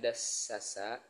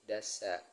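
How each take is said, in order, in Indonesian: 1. Kata ini diucapkan dengan tiga suku kata. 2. Kata ini diucapkan dengan dua suku kata. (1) "yang awalnya penyebutannya dasasa" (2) "menjadi dasa"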